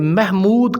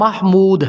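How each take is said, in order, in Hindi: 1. पहला स्वर 'e' की तरफ़ झुका हुआ है। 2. पहला स्वर साफ़ 'a' की आवाज़ है। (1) "इमाला करके" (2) "दुरुस्त नाम"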